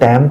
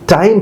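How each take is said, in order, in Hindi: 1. यह 'tam' की तरह, सपाट स्वर के साथ बोला जाता है। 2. यह साफ़ 'ai' स्वर के साथ सीधा बोला जाता है। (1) "टाइम तो है ही कुछ नहीं" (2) "टाइम प्रोनाउंसिएशन है"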